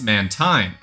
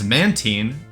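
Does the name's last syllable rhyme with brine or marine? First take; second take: brine; marine. First: The last syllable rhymes with brine. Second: The last syllable rhymes with marine. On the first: "as in brine" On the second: "as in marine"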